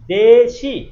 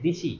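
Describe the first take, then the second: First: The first vowel is e, the second i. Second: Both vowels are i, said in one go. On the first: "একবার দে একার বলতে হচ্ছে, আর একবার বলতে হচ্ছে ই" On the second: "এক নাগাড়ে হয়ে যাচ্ছে দিশি"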